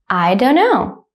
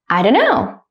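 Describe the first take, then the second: First: The sentence is said slowly and carefully. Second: The sentence is said at normal conversational speed. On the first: "one time slowly" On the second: "at a normal speed, like a native speaker"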